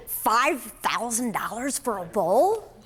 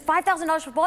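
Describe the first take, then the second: First: Slow, drawn-out stunned question; stunned disbelief. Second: Higher, quicker shocked repeat; shocked outburst. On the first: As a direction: let the price sink in, word by word. Stunned by five thousand dollar price. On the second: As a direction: blurt it out in disbelief. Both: Retold or imitated.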